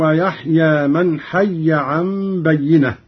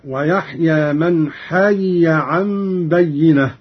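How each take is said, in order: First: حي as hayya, doubled y; measured recitation, hayya in حي; merged reading. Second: حي as hayiya, two separate y's; slow recitation, حي split into ha-yi-ya; unmerged reading. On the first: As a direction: recite حي with the two y's merged. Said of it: "قرأ قالون بفك الإدغام". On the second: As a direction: separate the y's in حي, first with i, second with a. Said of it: "بفك الإدغام". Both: Shown as a demonstration.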